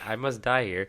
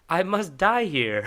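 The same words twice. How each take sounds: First: The line is said in a flat, calm voice. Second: The line is said in an excited voice.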